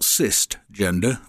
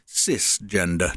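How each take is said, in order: First: The first syllable sounds like 'cyst'. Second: The first syllable sounds like 'sis'. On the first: The speaker calls it wrong. "not cisgender. We don't have gender for cysts" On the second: The speaker calls it right. "That's right, cisgender"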